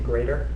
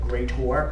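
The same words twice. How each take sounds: First: The word ends with a plain 'er' sound. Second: The word ends with a clear 'or' sound. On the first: "instead of saying greater" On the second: "if you say like greater"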